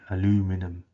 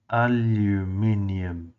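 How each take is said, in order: First: It is said with four syllables, ending -inum. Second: It is said with five syllables, ending -inium. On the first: The speaker calls it wrong. "not al aluminum, as our friends across the pond say" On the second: The speaker calls it right. "remember it's aluminium"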